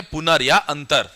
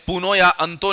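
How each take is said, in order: First: पुनर् या अंतर, both ending in r; correct r endings. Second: पुनो या अंतो, both ending in o; wrong o endings. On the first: Teacher showing what we will say instead, r endings. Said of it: "हम क्या बोलेंगे". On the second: Teacher showing what we will not say, o endings. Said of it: "हम उसे पुनो या अंतो नहीं बोलेंगे". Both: Shown as a demonstration.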